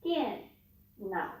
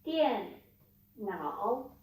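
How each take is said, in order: First: NAO short and low after dian; low third tone. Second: NAO dipping, then rising, after dian; falling-rising tone. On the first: Teacher showing how to say computer, low short NAO. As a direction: drop nao low with no rise. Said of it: "You just need to say". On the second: Teacher showing how not to say computer, dipping-rising NAO. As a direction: give nao the full fall and rise in dian nao. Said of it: "you don't need to say". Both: Shown as a demonstration.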